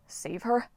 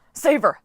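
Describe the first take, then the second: First: Said in the usual way. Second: Loud, high order; urgent yell. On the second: Acted. Coach Hedge yelling at Jason to save Piper. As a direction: shout it fast. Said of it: "Hedge yelled".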